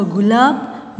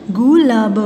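First: Said in the usual way. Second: gulab sounded out in parts; syllable by syllable. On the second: Shown as a demonstration. (गुलाब को तोड़-तोड़ कर) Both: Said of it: "फिर ये सारे बोलने".

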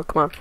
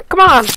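First: Said in the usual way. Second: High, loud burst of urging; urgent shout. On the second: Real, not acted. Gamer straining to grab the rope, urgent shout. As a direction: yell it to force the move through.

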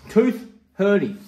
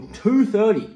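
First: "Two thirty" said as "tooth hurty", split by a pause; punning pronunciation. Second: Said in the usual way. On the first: Shown as a demonstration. Telling a weird dentist joke, "Two thirty" punned as "tooth hurty". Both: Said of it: "if it's a weird dentist joke".

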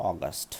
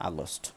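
First: অগাস্ট as "awgust", short and low; correct pronunciation. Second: আগস্ট said "aagost"; the common wrong আগস্ট, with an open a; wrong pronunciation. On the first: Teacher modelling the correct অগাস্ট. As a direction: sound it "awgust", not "aagost". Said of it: "এর সঠিক প্রনাউন্সিয়েশনটা হবে". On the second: Teacher showing the wrong আগস্ট. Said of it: "আমরা বেশিরভাগ সময় এটাকে বলে থাকি কি?". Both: Shown as a demonstration.

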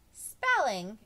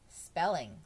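First: Loud, higher exclamation of "Spelling!"; exclaimed. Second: Said in the usual way. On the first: A narrator's reading. Jenny exclaiming at Bob's favorite subject, loud disbelief. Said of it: "exclaimed Jenny".

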